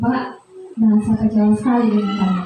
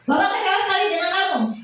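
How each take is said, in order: First: It is said in a soft voice. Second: It is said in a harsh voice.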